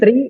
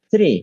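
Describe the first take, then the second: First: It begins with a plain t sound. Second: It begins with a soft th between the teeth. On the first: The speaker calls it wrong. "Jangan tri" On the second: The speaker calls it right. "jadi suaranya antara dua gigi tapi dengan desis lembut"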